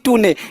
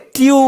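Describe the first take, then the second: First: It is said in two syllables, like too-neh. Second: It is said in one syllable, like tyoon. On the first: The speaker calls it wrong. "इसको टूने नहीं बोलते" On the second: The speaker calls it right.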